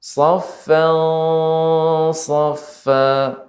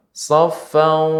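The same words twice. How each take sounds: First: Safan thick and raised, lips held back; thick, lips not pushed out. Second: Safan with lips pushed out and rounded, an au sound at the end; wrong rounded-lip sad. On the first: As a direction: recite Safan, safa thick without rounding the lips. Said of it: "bibir kita jangan sampai monyong". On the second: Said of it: "Kalau monyong". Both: Shown as a demonstration.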